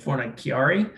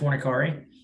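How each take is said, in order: First: The name is said with a little added flair. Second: The name is said plainly, without flourish. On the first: The speaker is feeling a bit fancy. "if I'm feeling a little snazzy" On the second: This is the speaker's everyday way of saying it. "I've always said"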